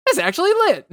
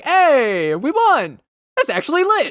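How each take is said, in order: First: High excited squeal; excited cheer. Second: High excited shout; excited gamer cheer. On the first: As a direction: squeal it like you just won. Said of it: "me literally being like". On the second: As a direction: cheer like you just won. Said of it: "I was like". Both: Retold or imitated.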